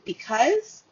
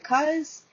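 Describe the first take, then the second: First: The unstressed first syllable is fully pronounced. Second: The unstressed first syllable is dropped entirely.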